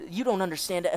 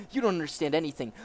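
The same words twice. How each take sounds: First: Put-on slipped into the officer's German accent; wrong accent. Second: Put-on quicker retake without the German accent; corrected accent. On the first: Captive protesting to interrogator, in the wrong German accent. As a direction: mistakenly keep the German accent. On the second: Captive protesting to interrogator, German accent dropped. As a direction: drop the German accent and rush it. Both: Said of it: "I keep using the wrong accent".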